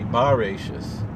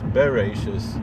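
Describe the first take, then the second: First: The first vowel is a full open 'a'. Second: The first vowel is a short reduced 'e'. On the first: It means in the beginning. "if it was with a pasach, it would be in the beginning" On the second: It means in beginning. "since it's with a, a shva, it's just in beginning"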